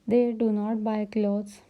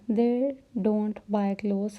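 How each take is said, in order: First: The verb is said in full as two words. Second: The verb is contracted to one syllable, don't. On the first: "डू नॉट भी बोलते हैं" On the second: "हम इसे डोंट भी बोलते हैं"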